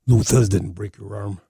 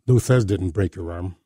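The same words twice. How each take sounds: First: It is said in an imitated, put-on voice. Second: It is said in the speaker's ordinary voice.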